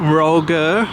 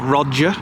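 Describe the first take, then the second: First: The name is pronounced the French way. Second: The name is pronounced the English way.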